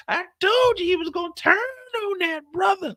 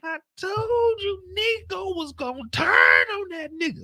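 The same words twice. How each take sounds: First: Much higher put-on partner voice, no tears; Kendall's clean version. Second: Much higher, slow, shouting through tears; Kendall crying out. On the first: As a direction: repeat it tidied up, calmer. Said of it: "She said". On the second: Retold or imitated. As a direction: wail it like an overwhelmed partner. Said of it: "Kendall said".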